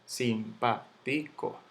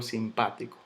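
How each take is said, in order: First: Simpático split as sim-pá-ti-co; syllable by syllable. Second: Said in the usual way. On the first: Shown as a demonstration. Teacher sounding out the word for students, slow separate syllables. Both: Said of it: "Yo digo simpático".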